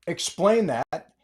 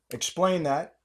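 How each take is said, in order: First: Slow, each word of "Explain that" pressed out; slow emphatic demand. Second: Said in the usual way. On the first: Real, not acted. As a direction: drag out the demand. Repeated demand.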